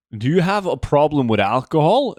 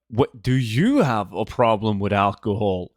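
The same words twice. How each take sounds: First: Said in the usual way. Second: "you" pitched up, the rest low and level; stress on YOU. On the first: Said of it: "when Monchi get asked". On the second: Retold or imitated. Streamer retells Monchi flipping the question back, stress on "you". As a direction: turn it back on the asker by punching "you". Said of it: "a reverse card".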